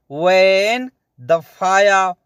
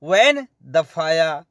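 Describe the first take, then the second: First: Slow repeat. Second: Said in the usual way. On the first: Shown as a demonstration. Teacher repeating the Arabic slowly for learners. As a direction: stretch out वैन दफाया so students catch it. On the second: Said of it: "heater कहाँ है".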